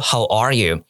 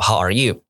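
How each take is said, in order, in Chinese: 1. 单词 'are' 带主要重音。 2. 单词 'are' 不重读。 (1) "应该说how are you，我还是把重音放在第二个字" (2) "不是这样子说how are you"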